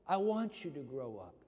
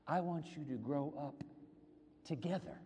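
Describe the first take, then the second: First: Said in the usual way. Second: TOGETHER set apart after a pause; pause, then land on "together" softly and deliberately; stress on TOGETHER. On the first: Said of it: "what he's really saying is". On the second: Shown as a demonstration. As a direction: hold back "together" for emphasis. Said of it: "Emphasis on together".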